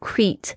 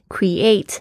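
First: The stress is on the first syllable. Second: The stress is on the second syllable. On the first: The speaker calls it wrong. "不要念成create" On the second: The speaker calls it right. "create 这个重音是在第二个音节"

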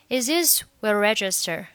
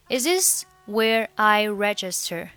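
First: The words run together, linked and faster. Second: The words are said separately without linking. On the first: "当你读快的时候呢，这边就会连读成" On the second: "其实你也可以选择不连读啊，就是正常读。"

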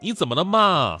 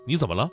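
First: It sounds sweet and cutesy. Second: It sounds plain and flat.

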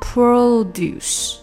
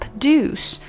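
First: The first vowel is a full o sound. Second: The first vowel is a short schwa. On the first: The word is used as a noun. "但是作为名词它就是produce" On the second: The word is used as a verb. "如果是作为动词的话produce"

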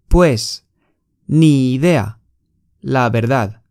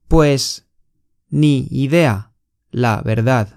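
The two takes are said the same way.

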